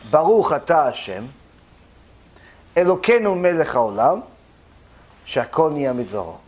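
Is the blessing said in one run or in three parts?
three parts. It is split by pauses into three parts.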